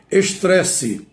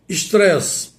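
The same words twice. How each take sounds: First: "Estresse" with a full final vowel, "es-três-si"; em português. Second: "estresse" cut short as "istrés", no final vowel; termo estrangeiro. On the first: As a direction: sound the last e of "Estresse". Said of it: "Mas em português, como devo pronunciar". ("Estresse" aportuguesado, com e final pronunciado) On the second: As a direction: end "estresse" on the s, English-like. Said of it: "vem do inglês". ("estresse" à inglesa, sem o e final) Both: Shown as a demonstration.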